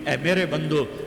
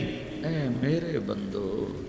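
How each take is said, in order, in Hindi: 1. यह सपाट, सादे लहजे में कहा गया है। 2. यह कोमल, प्यार भरे लहजे में कहा गया है।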